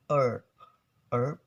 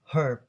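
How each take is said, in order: First: "herb" as erb, no h; American silent H. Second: "herb" with a clearly breathed h; British clear H. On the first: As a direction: drop the h from "herb", American style. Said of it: "In Americans". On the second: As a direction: sound the h at the start of "herb". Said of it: "will be pronounced it really clear". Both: Shown as a demonstration.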